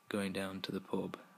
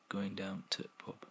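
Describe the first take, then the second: First: The word 'the' is said in full. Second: The word 'the' is dropped and 'to' shortened. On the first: "instead of saying" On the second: "completely getting rid of the word the, and we're shortening the word to"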